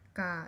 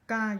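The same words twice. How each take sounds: First: The syllable is said with a falling pitch. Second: The syllable is said with a high pitch. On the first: "you have to go down. The tone is down" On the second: "you have to go a little bit high with the pitch"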